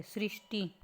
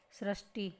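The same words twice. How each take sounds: First: सृष्टि said as "srishti"; correct pronunciation. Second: सृष्टि said as "srashti"; सृष्टि misread as sra-shti; wrong pronunciation. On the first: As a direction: say सृष्टि with "ri" after s. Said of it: "स के री की मात्रा". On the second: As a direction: say सृष्टि with an "a" after sr. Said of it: "तो सृष्टि नहीं लिखते". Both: Shown as a demonstration.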